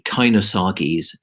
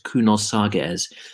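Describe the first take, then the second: First: The name is pronounced with English sounds. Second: The name is pronounced with Greek sounds.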